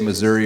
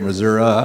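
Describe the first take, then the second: First: It is said the way town people say it. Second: It is said the way country people say it. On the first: The speaker is from a town. "whether you're in the town" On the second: The speaker is from the country. "or the country"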